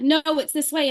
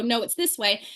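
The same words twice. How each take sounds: First: Said in the usual way. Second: "No, it's this way." with "this" leaned on and a falling end; countering retort. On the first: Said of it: "doctor said". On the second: Retold or imitated. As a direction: push back firmly, landing on "this". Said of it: "And I go".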